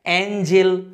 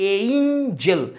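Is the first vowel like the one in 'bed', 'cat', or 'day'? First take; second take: cat; day. First: The first vowel sounds like the one in 'cat'. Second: The first vowel sounds like the one in 'day'. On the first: The speaker calls it wrong. "আমরা অনেকে এটাকে বলি অ্যাঞ্জেল" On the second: The speaker calls it right. "ব্রিটিশের উচ্চারণ হয় এইঞ্জেল"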